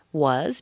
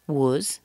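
First: Said in the usual way. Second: "was" weakened to a quick schwa "wuz"; reduced was. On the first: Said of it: "Was becomes was". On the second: Shown as a demonstration. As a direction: shrink "was" to an unstressed "wuz". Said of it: "very s-, very fast".

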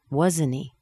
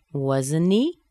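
First: "wasn't he" falling at the end; seeking agreement. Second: "Wasn't he" rising steeply at the end; rising intonation. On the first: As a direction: stress "wasn't", drop on "he". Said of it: "I want you to agree with me". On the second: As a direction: lift "he" as a question. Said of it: "Going up in intonation". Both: Shown as a demonstration.

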